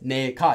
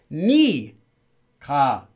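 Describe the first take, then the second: First: The first syllable has an 'e' vowel. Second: The first syllable has an 'i' vowel. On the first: The speaker calls it wrong. "Ne ka is actually not pronounced as ne ka" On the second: The speaker calls it right. "It's actually pronounced as ni ka"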